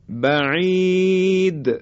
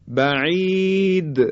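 The two takes are said the same way.

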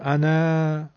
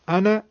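First: The final vowel is drawn out long. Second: The final vowel is cut short. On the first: The speaker calls it wrong. "نمیگم" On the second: The speaker calls it right. "کوتاه دارم میگم فتحه رو"

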